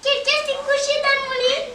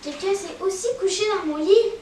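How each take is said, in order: First: It is said in a tiny, high voice. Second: It is said in a middle-pitched voice.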